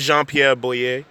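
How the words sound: The name is said with a Haitian Creole accent. "in Haitian Creole"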